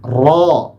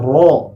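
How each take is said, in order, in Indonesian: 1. Vokalnya terbuka, bibir tidak monyong. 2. Vokalnya membulat, bibir monyong. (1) "ketika fathah tidak boleh domah" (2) "nggak boleh ro"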